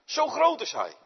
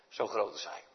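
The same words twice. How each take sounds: First: High, loud proclamation of how great; big booming "groot", high and loud; proclaimed loud. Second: Low, soft echo of the line; softly, "groot" low and hushed; hushed awe. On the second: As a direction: drop it to an awed hush. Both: Acted.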